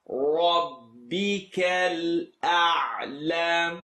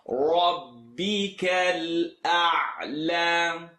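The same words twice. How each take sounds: The two takes are said the same way.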